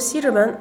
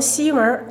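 First: All three syllables are fully pronounced. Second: The middle syllable is swallowed almost completely. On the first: "再如西直门" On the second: "听成西门、东门，真不是您听力不好，而是我们就这么说"

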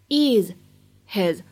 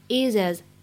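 First: The h is kept and the words stay separate. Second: The h drops and the words link into one.

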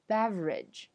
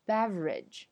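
First: The middle syllable is dropped. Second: The middle syllable is dropped.

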